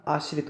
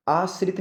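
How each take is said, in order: First: आश्रित with sh, "aash-rit"; correct pronunciation. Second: आश्रित with a plain s, "aas-rit"; wrong pronunciation. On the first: Teacher gives the right form, आश्रित as "aash-rit". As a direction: sound sh in आश्रित. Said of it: "होता". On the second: Teacher shows the mistake, आश्रित as "aas-rit". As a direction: use s in आश्रित. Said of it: "नहीं होता". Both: Shown as a demonstration.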